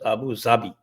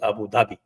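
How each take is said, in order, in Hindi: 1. इस नाम का उच्चारण 'z' ध्वनि के साथ होता है। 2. इस नाम का उच्चारण 'dh' ध्वनि के साथ होता है। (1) "उर्दू में it is uh, pronounced as" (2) "otherwise everybody uh, says it is"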